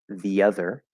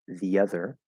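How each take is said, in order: No difference in how they are said.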